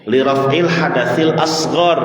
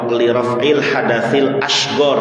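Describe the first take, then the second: First: Asghar is said with an emphatic s sound. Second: Asghar is said with an sh sound. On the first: The speaker calls it right. "yang betul shad" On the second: The speaker calls it wrong. "Ada sementara orang yang baca"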